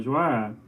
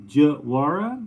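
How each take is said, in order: First: Joara, smooth as one flowing word with no break; Joara, as she herself says it; her name said right. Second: Joara split with a pause in the middle and a rising questioning end; Joara, as the guy mangles it; mimicking a mispronunciation. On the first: Retold or imitated. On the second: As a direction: Joara chopped into two parts, puzzled. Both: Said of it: "Well, without the pause".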